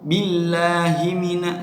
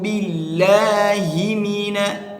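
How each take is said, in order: First: The final vowel of billahi drifts toward e. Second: The final vowel of billahi is a clear i. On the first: The speaker calls it wrong. "nggak jelas" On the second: The speaker calls it right. "harus kita jelaskan"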